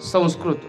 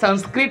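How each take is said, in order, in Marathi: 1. हा उच्चार स्थानिक मराठी बोलणारे लोक जसा म्हणतात तसा म्हटला जातो. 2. हा उच्चार उत्तरेकडील लोक जसा म्हणतात तसा म्हटला जातो. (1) "आपल्याकडे काय म्हणतात संस्कृत" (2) "उत्तरेकडे संस्कृत म्हणतात"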